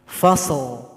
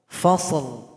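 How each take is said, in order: The two takes are said the same way.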